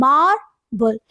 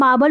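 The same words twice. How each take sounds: First: "marble" split in two, long stressed MAR, then weak ble. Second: Said in the usual way. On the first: Shown as a demonstration. Teacher showing strong and weak sounds, "marble" as stressed MAR, weak ble. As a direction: stretch the MAR of "marble", pause, drop ble. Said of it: "जिसमें strong sound आ रहा है". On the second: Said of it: "marble में भी you can say".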